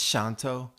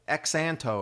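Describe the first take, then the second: First: The name begins with an sh sound. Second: The name begins with a z sound. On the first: The speaker calls it right. "X is pronounced as an S sound, sh" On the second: The speaker calls it wrong. "It looks like Xanto or something"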